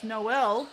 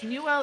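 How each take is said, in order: First: The name is said like the word Noel. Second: The name is said with two syllables like Newell. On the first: The speaker calls it right. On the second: The speaker calls it wrong.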